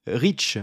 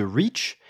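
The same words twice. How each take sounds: First: Rich with a short i, the wrong vowel for reach. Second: Reach with a long ee; right vowel. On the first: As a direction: say rich, short clipped i, as a French speaker might. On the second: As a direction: stretch the ee in reach. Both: Shown as a demonstration. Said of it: "rich au lieu de reach".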